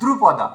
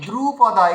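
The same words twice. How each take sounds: First: The first syllable's vowel is kept short. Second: The first syllable's vowel is drawn out long. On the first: The speaker calls it right. "মানে হর্ষ হয়ে গেল" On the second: The speaker calls it wrong. "তখন দ্রু দীর্ঘ হয়ে গেল"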